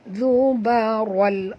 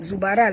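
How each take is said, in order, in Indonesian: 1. Bunyi r itu berat dan tebal. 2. Bunyi r itu ringan dan tipis. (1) "ral tebal" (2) "tak betul sebut zubaral"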